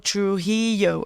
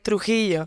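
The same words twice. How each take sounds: First: The name is said with English sounds. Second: The name is said with Spanish sounds. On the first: This is how other people say the name. The speaker calls it wrong. "They're like, oh" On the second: This is how the owner of the name says it. The speaker calls it right. "I go like"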